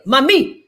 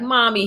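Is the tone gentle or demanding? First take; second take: demanding; gentle. First: It is said in an insistent, demanding way. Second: It is said in a calm, gentle way.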